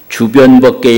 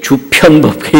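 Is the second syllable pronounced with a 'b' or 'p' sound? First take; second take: b; p. First: The second syllable starts with a plain b. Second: The second syllable starts with an aspirated p. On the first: The speaker calls it right. "우리가 발음할 때는 주변법계 이러지" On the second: The speaker calls it wrong. "주편법계 이렇게 안 하거든요"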